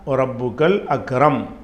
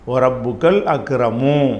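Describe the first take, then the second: First: The last word ends on a bare 'm' sound. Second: The last word ends with a short 'u' vowel. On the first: The reading stops at this word. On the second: The reading continues on to the next words.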